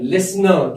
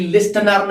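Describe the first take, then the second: First: "लिसनर" with the T left out; "लिसनर" said with no T sound; silent T. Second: "लिस्टनर" with an audible T; wrong-way "लिस्टनर", T clearly spoken; T pronounced. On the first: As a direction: go straight from S to N in "लिसनर". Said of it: "वो हमेशा silent होता है". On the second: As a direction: sound the T after the S in "लिस्टनर". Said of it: "लिस्टनर नहीं पढ़ते हैं". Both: Shown as a demonstration.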